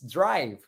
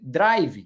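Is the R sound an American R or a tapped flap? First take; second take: American R; flap. First: The R is a smooth American R. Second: The R is a quick tapped flap. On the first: The speaker calls it right. "It's drive" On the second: The speaker calls it wrong. "I see a lot of students here in Brazil saying drive"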